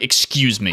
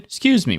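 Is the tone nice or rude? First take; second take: rude; nice. First: It is said in a rude, curt tone. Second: It is said in a nice, polite tone.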